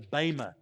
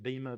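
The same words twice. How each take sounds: First: The first vowel sounds like 'ay'. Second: The first vowel sounds like 'ee'. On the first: The speaker calls it right. "I try to get the A sound instead of the E sound" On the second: The speaker calls it wrong. "Most people pronounce it bema"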